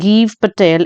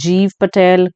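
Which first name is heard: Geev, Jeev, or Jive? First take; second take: Geev; Jeev. First: The first name starts with hard g, rhyming 'leave'. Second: The first name starts with j and rhymes with 'leave'. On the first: This is how the person says his own name. The speaker calls it right. "तो it's गीव Patel, it's not जाइव और जीव" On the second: This is how many people say the name. The speaker calls it wrong. "बहुत सारे लोग इसे जीव पटेल"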